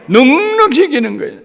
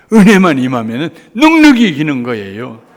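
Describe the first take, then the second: First: Much higher, louder shout on 넉넉히; soaring preaching cry. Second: Loud, stress on 넉넉히; fervent preaching. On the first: Preacher repeating the promise to the congregation, soaring shout. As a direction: cry 넉넉히 out at full force. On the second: Preacher proclaiming victory by grace, fervent. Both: Acted.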